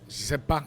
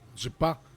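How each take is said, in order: First: The ne is dropped, leaving three syllables. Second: It is squeezed into two quick syllables. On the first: "and I say uh, je sais pas" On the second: "Some other people would say je pas"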